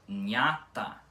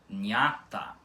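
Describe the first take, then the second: Both takes have the same delivery.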